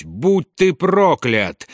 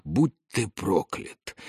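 First: Slow, higher-pitched roar; roared curse. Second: Slow, softer, hushed curse; barely voiced, drawn-out curse; whispered curse. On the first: Карнак bursts out at his father, roared curse. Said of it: "взревел он". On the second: Карнак curses his father alone under the stones, whispered. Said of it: "прошептал Карнак". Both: A narrator's reading.

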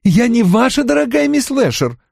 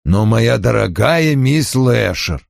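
First: Higher, sharp indignant reply; indignant retort. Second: Slow, smooth coaxing tone; suave coaxing. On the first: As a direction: throw his words back at him. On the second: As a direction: soothe her with mild reproach. Suave reproach to a visitor. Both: A narrator's reading.

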